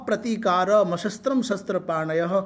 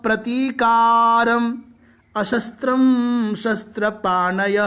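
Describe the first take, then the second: First: The first two words run together without a break. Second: The first two words are said with a break. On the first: It follows the traditional unbroken recitation. "ऐसा भी बोला जा सकता है, संयुक्त है" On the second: The split makes the meaning of the words clear. "अर्थावगमन के लिए और विराम की दृष्टि से ... ऐसा बोल दिया"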